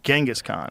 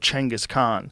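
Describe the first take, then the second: First: The name begins without the 'ch' sound. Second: The name begins with a 'ch'-like sound. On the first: This is the form changed by translation. The speaker calls it wrong. "how it got fucked up over the years of translation" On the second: This is the original form of the name. The speaker calls it right. "languages that didn't have cheng"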